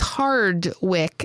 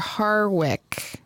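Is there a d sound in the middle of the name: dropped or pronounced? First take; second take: pronounced; dropped. First: The name is said with a d sound. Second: The name is said without a d sound. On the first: The speaker calls it right. "It's Hardwick" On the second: The speaker calls it wrong. "I've been pronouncing the director's name wrong"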